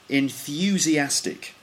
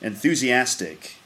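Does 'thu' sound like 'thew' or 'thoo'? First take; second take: thew; thoo. First: The 'thu' part has a 'y' glide, sounding like 'thew'. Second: The 'thu' part has no 'y' glide, sounding like 'thoo'. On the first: This is the British pronunciation. "In British English, we say enthusiastic. So you can hear that U" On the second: This is the American pronunciation. "Whereas in America"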